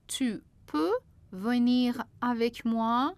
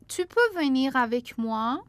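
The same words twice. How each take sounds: First: Slow, careful model sentence; slowly. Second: Said in the usual way. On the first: Shown as a demonstration. Teacher repeats the example slowly for the class. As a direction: spell it out slowly for learners. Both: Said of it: "répéter lentement".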